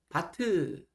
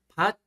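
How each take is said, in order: First: The final consonant is released with an extra vowel. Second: The final consonant is held without release. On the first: The speaker calls it wrong. "이렇게 뒤로 가는 소리가 아닙니다" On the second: The speaker calls it right. "요 자리에서 끝이 나버려야 됩니다"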